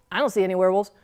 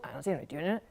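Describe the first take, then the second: First: Said in the usual way. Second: Much softer, small scared voice; a frightened kid's hushed reply; timid. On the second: Acted. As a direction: answer barely daring to speak. Scared little sister answering.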